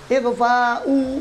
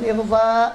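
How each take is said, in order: First: The word ends with a full final vowel. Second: The word ends clipped, without the final vowel. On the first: The speaker calls it right. "jangan di waqaf, jangan disukun" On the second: The speaker calls it wrong.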